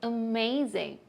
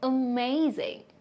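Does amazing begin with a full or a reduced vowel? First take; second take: reduced; reduced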